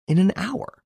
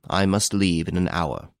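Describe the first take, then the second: First: High, rising, incredulous question; startled query with a sharp final rise; surprised echo. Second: Said in the usual way. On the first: A narrator's reading. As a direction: echo it back in surprise, pitch shooting up. Host echoes it in disbelief.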